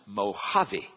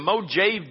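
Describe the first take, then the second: First: The middle consonant is an H sound. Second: The middle consonant is a J sound. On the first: The speaker calls it right. "the J is pronounced like an H" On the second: The speaker calls it wrong. "it's spelled with a J"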